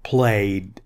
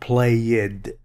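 First: The ending is said as a short 'd' sound. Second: The ending is said as an extra syllable 'id'. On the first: The speaker calls it right. "Sounds like D" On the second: The speaker calls it wrong. "Not played"

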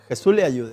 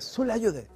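First: The phrase is slower, with every word clearly pronounced. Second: The phrase is fast, with syllables slurred together.

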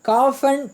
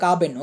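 First: The name is said in an English style. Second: The name is said in a Tamil style. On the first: "ஆங்கிலத்தில் pronunciation பண்ணுவாங்க" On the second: "தமிழில் காபன்"

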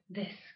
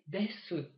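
First: The final u vowel is dropped. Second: The final u vowel is pronounced. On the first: "буква «у» ... не произносится" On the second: "полный вариант произношения"

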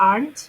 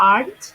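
No difference in how they are said.

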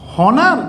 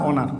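First: The word begins with an h sound. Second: The word begins with a vowel sound. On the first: The speaker calls it wrong. "উচ্চারণটা কি হনার না অনার?" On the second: The speaker calls it right. "উচ্চারণ হচ্ছে অনার"

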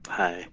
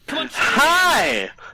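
First: It is said flatly, without feeling. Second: It is said loudly and with feeling.

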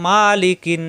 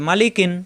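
First: The first vowel is drawn out long. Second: The first vowel is kept short and quick. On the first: The speaker calls it wrong. "এরকম পড়া যাবে না, কারণ মা টান নাই" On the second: The speaker calls it right. "হরকতের উচ্চারণ তাড়াতাড়ি করতে হয়, কোনো দেরি করা যাবে না"

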